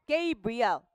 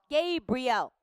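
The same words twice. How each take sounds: The two takes are said the same way.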